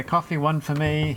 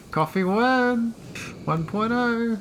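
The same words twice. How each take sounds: First: Said in the usual way. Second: High, drawn-out posh voice; mock posh. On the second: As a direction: put on a posh voice, pitched up and slowed. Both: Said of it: "He, he sounds posh".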